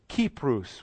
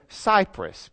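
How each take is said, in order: First: The name is said in its ancient Greek form. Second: The name is said in its modern English form. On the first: This is how people said it in ancient times. "would be the way they would have pronounced it back then" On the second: This is how people say it today. "as we call it now"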